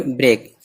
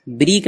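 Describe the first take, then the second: First: ब्रेक with an ay vowel; correct "break" vowel. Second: ब्रीक with a long ee; wrong vowel, "breek". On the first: Teacher correcting a misreading, ब्रेक with ay. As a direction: say ब्रेक with ay, avoiding ee. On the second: Teacher warning of a misreading, ब्रीक with ee. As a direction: say ब्रीक with ee, as a mistake. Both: Shown as a demonstration. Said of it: "ब्रीक ना पढ़े कोई".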